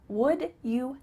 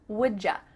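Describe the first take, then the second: First: The word you is said in full. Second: The words blend into a reduced ja sound. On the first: "Would you help me becomes would ya?" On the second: "Instead of a ch sound, ... we are going to say ja"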